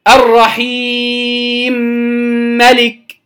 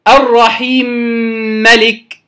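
First: The long vowel is held moderately. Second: The long vowel is held briefly.

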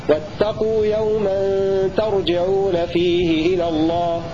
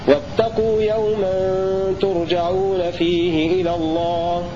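Both takes have the same delivery.

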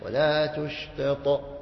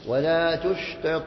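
First: The final consonant gets a strong echo at a stop. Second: The final consonant gets a light echo, run on. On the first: "وإن وقفت عليها فهذه كانت أرفع من السابقة" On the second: "فإن وصلت فكأنها في وسط الكلمة"

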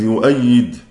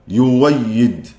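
First: A glottal stop follows the first vowel. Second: A plain w sound follows the first vowel.

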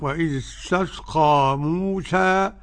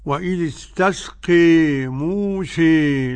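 First: The final vowel of Musa is an open a. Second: The final vowel of Musa leans strongly toward e. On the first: "بالفتح" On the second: "بالإمالة"

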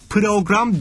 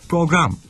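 First: A vowel is inserted between the p and r. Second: The p and r are joined with no vowel. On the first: The speaker calls it wrong. "Yani program değil" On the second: The speaker calls it right. "Araya hiçbir ses koymayacaksın. Program diyeceksin"

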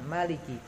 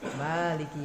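First: The first vowel is kept short. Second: The first vowel is held long. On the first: "maknya dipendekkan" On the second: "maknya dipanjangkan"

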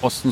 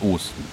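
First: The first vowel O is short. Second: The first vowel O is drawn out long. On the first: "nicht Osten" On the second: "diesmal ist die Woche des langen O's"

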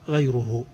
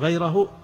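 First: The first syllable ends with a 'u' vowel. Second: The first syllable ends with an 'a' vowel. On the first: The one lacking knowledge is the one who follows. The speaker calls it right. "اجعلوها غيره ... خلوها بالضم" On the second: He follows another person. The speaker calls it wrong. "إذا كان عندكم غيره"

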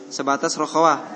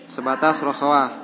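Both takes have the same delivery.

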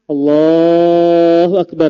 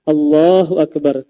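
First: The phrase is stretched out long. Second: The phrase is said short and quickly. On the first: The speaker calls it wrong. "itu kepanjangan" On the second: The speaker calls it right. "tidak dipanjangkan, namun dipendekkan"

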